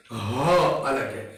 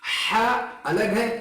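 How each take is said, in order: First: हा deep from the throat, lower; हा rasped from the throat. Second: हा breathed from the chest; हा from the chest, airy. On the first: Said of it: "हलक से निकलता है". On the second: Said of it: "हा जो है". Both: Shown as a demonstration.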